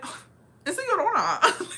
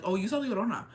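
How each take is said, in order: First: High, loud hammed-up cry; mock exclamation. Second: Offhand retold remark; casual. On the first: Locals realising it's La Llorona, hammed-up exclamation. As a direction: imitate their reaction in a much higher, louder voice. Locals' reaction, acted out before laughing. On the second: Locals telling him who he saw, imitated casual remark. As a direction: toss it off casually, imitating them. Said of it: "they said it so casually".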